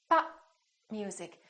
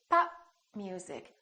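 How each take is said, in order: Both takes have the same delivery.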